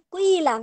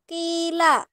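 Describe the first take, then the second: First: The first vowel is rounded, between 'oo' and 'ee'. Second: The first vowel is a plain, unrounded 'ee'. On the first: "baina dhammi wal kasri"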